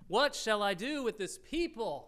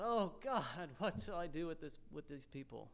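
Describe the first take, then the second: First: Raised, exclaimed plea to God; crying out. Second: Soft, sinking, helpless plea; imagined crying out. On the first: Moses appeals to the Lord about the people, crying out. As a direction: read it as a pitched-up cry for help. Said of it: "Moses cried to the Lord". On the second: Moses imagined praying about his people, softly crying out. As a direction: appeal to God quietly, fading away at the end. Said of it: "You just imagine him crying out". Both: Acted.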